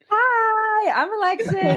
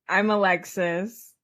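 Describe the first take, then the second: First: It is said with lots of enthusiasm. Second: It is said flatly, without enthusiasm.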